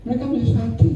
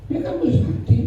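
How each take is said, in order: First: Said in the usual way. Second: Mereka mesti sakti whispered with no voice; whispered repeat. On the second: Shown as a demonstration. Pastor repeating the point to the congregation, whispered. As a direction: whisper it back for weight.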